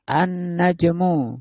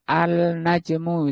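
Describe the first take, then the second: First: The l merges into a doubled n sound. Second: The article is said with a clear l sound. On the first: The speaker calls it right. "Alnya nggak bunyi" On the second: The speaker calls it wrong. "nggak boleh dibaca al-najmu"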